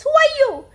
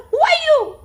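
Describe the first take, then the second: First: High, loud call into the mountains; curious yell. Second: Put-on high, loud echo of a boy's call; echoed yell. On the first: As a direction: yell it out, wanting to know who's there. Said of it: "Curious, he yells". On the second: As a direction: yell it back as the mountain's echo. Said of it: "He receives an answer". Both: A narrator's reading.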